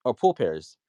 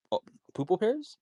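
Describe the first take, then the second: First: Said in the usual way. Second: Poople said high with a silly stretched oo, like poo; jokingly twist pool into poople, pitched way up; joking mispronunciation. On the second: Shown as a demonstration. Speaker teasing the shitcoin pool with a high silly poople.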